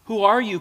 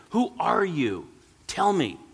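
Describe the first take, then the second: First: Loud startled cry, higher; sudden loud cry of fear; cried out. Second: Slow, higher, urgent plea; a frightened old man pleading; pleading cry. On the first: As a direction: call out in alarm to the unseen voice. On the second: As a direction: beg the voice to answer. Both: A narrator's reading. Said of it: "cried the old shoemaker".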